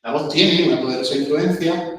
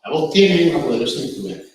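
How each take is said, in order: First: "influencia" sube al final, como si siguiera; final ascendente. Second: "influencia" cae al final, frase más fuerte; final descendente. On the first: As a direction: termina "La voz tiene una poderosa influencia" subiendo, sin cerrar. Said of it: "Si la acabamos arriba". (muestra el error de acabar la frase arriba) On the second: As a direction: termina "La voz tiene una poderosa influencia" bajando. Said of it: "la frase la acabemos abajo". (enseña a cerrar la frase con entonación descendente) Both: Shown as a demonstration.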